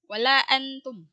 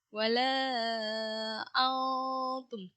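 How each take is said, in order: First: The n sound is pronounced clearly and distinctly. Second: The n sound is muffled, blending into the t. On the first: The speaker calls it wrong. "bukan wala antum, ... Jangan terlalu jelas" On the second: The speaker calls it right. "Ikhfa itu samar. ... Digantung huruf nunnya"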